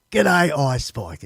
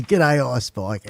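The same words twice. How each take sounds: First: Haltingly slow read of "G'day, Ice Spike". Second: Said in the usual way. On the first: Real, not acted. Reading a viewer's letter aloud, slow and careful. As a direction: sound out "G'day, Ice Spike" word by word, slowly. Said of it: "when I read, I'm slower".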